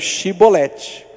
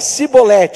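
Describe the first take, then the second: First: The word begins with an sh sound. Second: The word begins with an s sound. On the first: This is how the tribe that could not say S spoke. "tudo que tinha S falava Xi" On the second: This is how the tribe that could say S spoke. "conseguia usar o som de S"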